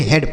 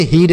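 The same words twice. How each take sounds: First: हेड with an e vowel, pitched lower; correct e reading. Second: हीड with a long ee; wrong long-ee reading. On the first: Teacher corrects the misreading, हेड with an e sound. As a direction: say हेड with "e", dropping to settle it. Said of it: "हेड पढ़ेंगे". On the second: Teacher warns against a misreading, हीड with long ee. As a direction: say हीड as the mistake, vowel like "need". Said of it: "इसे हीड नहीं". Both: Shown as a demonstration.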